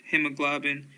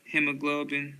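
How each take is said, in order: Both takes have the same delivery.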